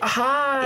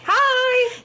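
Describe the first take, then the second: First: It is said more quietly. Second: It is said loudly.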